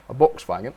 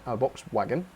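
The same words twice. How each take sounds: First: "wagon" starting with a v sound; German-style slip. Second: Said in the usual way. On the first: Real, not acted. Streamer writing a request slips, German-style v in "wagon". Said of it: "Nearly said that in a German accent". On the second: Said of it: "not a wagon".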